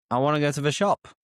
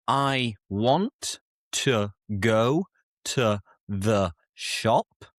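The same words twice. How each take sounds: First: "I wanna go to the shop" quick, with wanna reduced; weak forms, wanna. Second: Said in the usual way. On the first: Shown as a demonstration. Teacher showing the relaxed, reduced "wanna". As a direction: run "wanna" together fast. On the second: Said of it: "Instead of".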